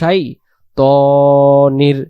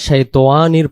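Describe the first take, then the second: First: The middle syllable is a short plain 'ta'. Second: The middle syllable is drawn out as 'towa'. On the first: The speaker calls it right. "এখানে উচ্চারণ করব আমরা" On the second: The speaker calls it wrong. "উচ্চারণটা ভুল হয়ে যাচ্ছে"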